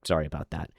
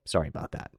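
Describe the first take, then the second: First: Said in the usual way. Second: "Sorry about that." whispered, much softer; sheepish whispered sorry; whispered apology. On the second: Real, not acted. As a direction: breathe "Sorry about that." as a throwaway aside. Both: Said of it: "I personally have an annoying voice".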